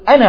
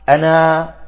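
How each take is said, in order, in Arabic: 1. الحركة الأخيرة قصيرة، وتتصل بالكلمة التي بعدها. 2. الحركة الأخيرة طويلة، وهي تنهي العبارة. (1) "أما إذا أردنا أن نصل نقول أنا عابد" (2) "إذا أردنا أن نقف عليها نقول أنا أنا"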